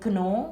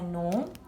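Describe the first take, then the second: First: The g at the start is pronounced. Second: The g at the start is silent. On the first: The speaker calls it wrong. "We don't say" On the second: The speaker calls it right. "the g is silent"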